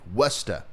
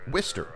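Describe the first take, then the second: First: It ends in an open 'ah' vowel. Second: It rhymes with mister, ending in an 'er'. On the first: "Worcester with an A at the end" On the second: "it's like Mister, but remove the um, M and, and pr- replace it with a W"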